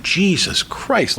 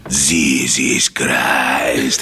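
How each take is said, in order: First: Said in the usual way. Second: Put-on low, very slow Greek-accented oath; scary Greek dad, deep and stretched; dad's Greek accent. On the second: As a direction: drag it out like a mad Greek father. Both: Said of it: "this is the way he would say it".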